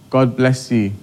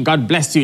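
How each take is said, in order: First: Said in the usual way. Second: God bless you thrown back with a rising, incredulous you; scornful God bless you. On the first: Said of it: "just send a message saying". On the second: Retold or imitated. Hostile relative mocking the blessing, incredulous and rising. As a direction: sneer it back as a question. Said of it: "Even if they respond".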